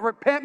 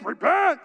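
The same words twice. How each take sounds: First: Said in the usual way. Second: Mock preacher's cry, pitched up; churchy exclamation. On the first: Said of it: "you know what repent means". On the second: Shown as a demonstration. Preacher showing off a churchy word, exclaiming. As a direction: cry it out like an old-time warning. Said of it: "that's another churchy word".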